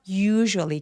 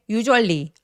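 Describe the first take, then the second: First: The first vowel is drawn out long. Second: The first vowel is short and clipped. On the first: The speaker calls it right. "usually 길게 표현해 주시고요" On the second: The speaker calls it wrong. "usually 아니고요"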